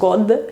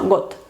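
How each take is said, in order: First: The word ends in a voiced D sound. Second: The word ends in a voiceless T sound. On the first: The speaker calls it wrong. "Se escribe con D, pero no es god" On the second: The speaker calls it right. "sino got"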